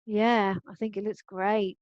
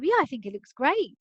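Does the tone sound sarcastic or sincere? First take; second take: sarcastic; sincere. First: It sounds sarcastic. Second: It sounds sincere and complimentary. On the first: The opposite of the words is meant. "This is actually showing sarcasm" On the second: It is a genuine compliment. "functional language for um, giving someone a compliment"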